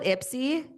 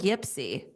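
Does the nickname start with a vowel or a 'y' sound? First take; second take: vowel; y sound. First: The nickname begins with a vowel sound. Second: The nickname begins with a 'y' sound. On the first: This is how people in Michigan say it. "do you call it Ipsy?" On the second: This is how people in North Dakota say it. "so they call it Yipsy"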